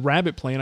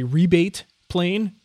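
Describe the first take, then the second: First: The first word sounds like 'rabbit'. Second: The first word sounds like 'ree-bate'. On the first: This is the speaker's own usual pronunciation. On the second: This is how people across the ocean say it.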